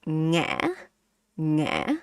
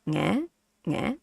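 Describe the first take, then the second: First: "nghe" broken in the throat, rising; heavier tone. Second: "nghe" short, easy rise; relaxed question tone. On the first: Teacher contrasting the second mark, heavy throat-stopped "nghe". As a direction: catch the air in "nghe", then lift. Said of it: "this one is more heavy". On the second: Teacher showing question mark, very relaxed rising "nghe". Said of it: "very relaxed". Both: Shown as a demonstration.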